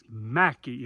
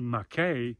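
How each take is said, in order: First: The name ends with an 'ee' sound. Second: The name ends with an 'ay' sound. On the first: The speaker calls it right. "It's Mackey" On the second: The speaker calls it wrong. "don't say Mackay"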